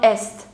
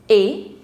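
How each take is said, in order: First: The final consonants are sounded. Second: The final consonants are silent. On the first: The speaker calls it wrong. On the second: The speaker calls it right.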